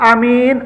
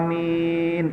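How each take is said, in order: First: The first vowel is short, the second long. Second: Both vowels are drawn out long. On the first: It means a trustworthy, honest person. "a-nya pendek, min-nya panjang" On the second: It asks God to grant the prayer. "Yang benar tu panjang dua-duanya"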